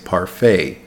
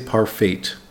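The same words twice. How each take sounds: First: The final T sound is silent. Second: The final T sound is pronounced. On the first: The speaker calls it right. "the T is silent. we say parfait" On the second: The speaker calls it wrong. "We don't say parfait"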